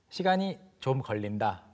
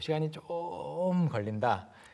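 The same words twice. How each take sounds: First: All syllables are said at normal length. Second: One syllable is drawn out long.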